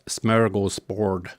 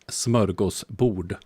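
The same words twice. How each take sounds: First: It is said with English pronunciation. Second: It is said with Swedish pronunciation. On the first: The speaker calls it wrong. "It's not smörgåsbord" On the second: The speaker calls it right. "try try to pronounce smörgåsbord"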